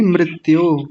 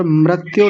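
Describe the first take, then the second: First: मृत्यु said as mri-tyo, short i after the r; correct मृत्यु. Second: मृत्यु said as mra-tyo, with an a after the r; mispronounced मृत्यु. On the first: Teacher correcting a student, मृत्यु as mri-tyo. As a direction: give मृत्यु a clear ri sound. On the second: Teacher showing a student the error, मृत्यु as mra-tyo. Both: Shown as a demonstration. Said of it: "और मृत्यु नहीं".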